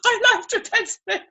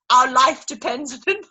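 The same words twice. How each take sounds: First: "My" lifted high and leaned on, with a laugh; stress on My. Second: Said in the usual way. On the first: Shown as a demonstration. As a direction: hit "My" hard and high.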